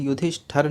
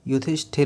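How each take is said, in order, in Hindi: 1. आखिरी हिस्सा 'shthar' की तरह बोला जाता है। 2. आखिरी हिस्सा 'shthir' की तरह बोला जाता है। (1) "युधिष्ठर नहीं होता है" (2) "युधिष्ठिर होता है"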